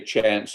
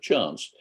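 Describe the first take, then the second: First: The word is said in an American accent. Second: The word is said in an English accent. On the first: It felt forced and unnatural for this speaker. The speaker calls it wrong. "to be a little American" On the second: It is the speaker's own natural way of talking. The speaker calls it right. "my accent is still ninety-eight percent English"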